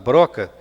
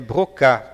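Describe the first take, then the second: First: The name is pronounced the Portuguese way. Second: The name is pronounced the French way. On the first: The speaker calls it wrong. "fica uma pronúncia muito estranha, nós tentássemos aportuguesá-la" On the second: The speaker calls it right. "esse nome pronunciado em francês"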